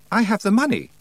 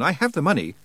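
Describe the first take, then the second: First: "I have the money" pitched much higher; insistent repeat. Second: Said in the usual way. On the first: A narrator's reading. Roland repeats "I have the money" to the doubting Feegle, insistent. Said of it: "Roland repeated".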